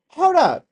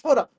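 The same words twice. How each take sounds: First: High, loud, urgent hold up; alarmed hold up. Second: Said in the usual way. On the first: Real, not acted. Streamer halting the clip, loud and urgent. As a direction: stop everything, shout it. Stopping at odd footage.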